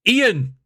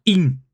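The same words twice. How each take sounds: First: Ian stretched to EE-an; two-syllable Ian. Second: Ian shortened to EEN; one-syllable Ian. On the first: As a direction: say Ian clearly as EE-an, two beats. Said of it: "It's not exactly the same". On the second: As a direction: make Ian a single beat, EEN. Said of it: "Not Ian". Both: Shown as a demonstration.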